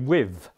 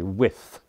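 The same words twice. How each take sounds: First: The word ends with a v sound. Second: The word ends with a th sound. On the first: This is how Cockney speakers say it. "instead of th, they're inclined to use an f or a v" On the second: This is not how Cockney speakers say it. "they don't say with"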